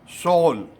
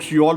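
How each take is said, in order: First: The name is said as one syllable, 'sol'. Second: The name is said as two syllables, 'si-yol'. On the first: The speaker calls it right. "South Korea की राजधानी है सोल" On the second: The speaker calls it wrong. "हम लोग सियोल बोलते हैं"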